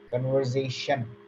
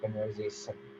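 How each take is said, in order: First: The ending is said with an sh sound. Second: The ending is said with an s sound. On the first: The speaker calls it right. "they are pronounced as sh" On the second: The speaker calls it wrong. "not as s"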